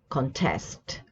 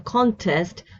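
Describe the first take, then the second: First: The stress is on the second syllable. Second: The stress is on the first syllable. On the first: It is used as a verb. "but the verb is to contest. See the stress here" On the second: It is used as a noun. "So a contest"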